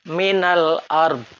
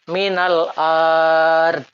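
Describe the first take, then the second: First: The vowel after the glottal stop is kept short. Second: The vowel after the glottal stop is drawn out long. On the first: The speaker calls it right. "Harus dibaca dengan pendek" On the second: The speaker calls it wrong. "Bacaan yang salah"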